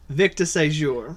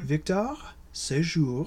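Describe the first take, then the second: First: The name is said with a New Orleans pronunciation. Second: The name is said with a French pronunciation. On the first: "you did say it in New Orleans" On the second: "I'm going to say it in French"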